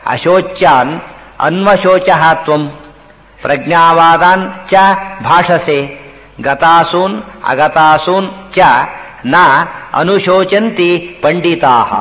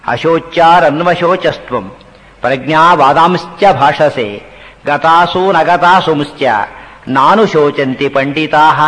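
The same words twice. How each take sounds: First: Slow Sanskrit with each word separated by a pause; measured teacher's breakdown of the verse; word-by-word verse recitation. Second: Slow, measured shloka with words run together; slow scriptural recital in joined phrases; Sanskrit verse recitation. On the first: Shown as a demonstration. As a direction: split the shloka into single words, drawing each out. Same verse split word by word. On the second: Acted. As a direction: recite the verse line by line, long vowels drawn out.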